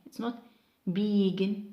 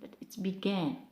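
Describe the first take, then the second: First: The stress is on the first syllable. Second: The stress is on the second syllable. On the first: The speaker calls it wrong. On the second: The speaker calls it right. "most of the time we mark stress pattern on the second syllable for verbs"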